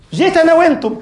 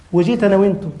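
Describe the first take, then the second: First: أنا lifted high and loud; fervent outcry. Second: Said in the usual way. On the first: Real, not acted. Preacher repeating to congregation, high fervent cry. Same words repeated with force.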